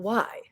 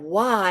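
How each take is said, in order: First: It is said in a curious, wondering tone. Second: It is said in a whining, complaining tone. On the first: The person genuinely wants to understand the reason. The speaker calls it right. "be a bit more curious, be a bit more inquisitive" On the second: The person feels sorry for themselves. The speaker calls it wrong. "in a whiny voice"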